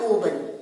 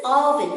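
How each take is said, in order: First: "oven" opening on oh, oh-ben; long O mispronunciation. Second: "oven" opening on a short aw, aw-vin; short O pronunciation. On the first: Teacher showing children what to avoid, long-O oven. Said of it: "This is not oven". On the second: Teacher modelling for children, short-O oven. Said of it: "not oven". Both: Shown as a demonstration.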